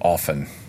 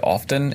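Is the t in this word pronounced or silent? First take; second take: silent; pronounced. First: The t sound is silent. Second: The t sound is clearly pronounced. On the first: The speaker calls it right. "it's actually often" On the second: The speaker calls it wrong. "I used to say often"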